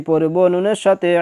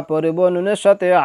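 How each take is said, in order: Both takes have the same delivery.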